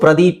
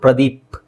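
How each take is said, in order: First: The name ends with a final vowel sound. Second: The name ends on a bare consonant. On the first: This is how the written letters read. "ಕನ್ನಡದಲ್ಲಿ ಇದು ಪ್ರದೀಪ" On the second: This is how people actually say the name. "ಆದ್ರೆ ನೀವು ಪ್ರದೀಪ ಅಂತ ಹೇಳ್ತೀರಾ"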